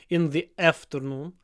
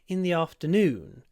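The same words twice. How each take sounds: First: The stress is on the first syllable. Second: The stress is on the last syllable. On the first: The speaker calls it wrong. "with the stress on the a. Nope, it's not on the a" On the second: The speaker calls it right. "The stress is on noon"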